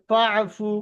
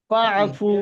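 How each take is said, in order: Both takes have the same delivery.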